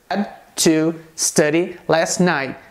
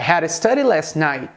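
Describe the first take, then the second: First: Had to is pronounced fully, as two clear words. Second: Had to is blended into a reduced hadda.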